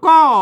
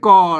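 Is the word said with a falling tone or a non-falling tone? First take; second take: falling; non-falling. First: The word is said with a falling tone. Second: The word is said without a falling tone. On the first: This is the normal reading. "อ่านว่าก้อนะครับเสียงโทปกติ" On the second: This is the old reading. "แต่ในโบราณมาแล้วน่ะ...เปิ้นอ่านเป็นกอ"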